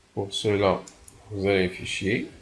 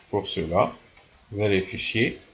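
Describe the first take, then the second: Both takes have the same delivery.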